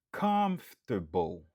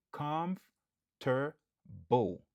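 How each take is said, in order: First: Comfortable louder, COM stressed; loud model word, first syllable stressed. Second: Comfortable drawn out slowly and higher; slow careful model word. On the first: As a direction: punch COM. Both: Shown as a demonstration. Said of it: "Nou aksantye sou premye silab lan".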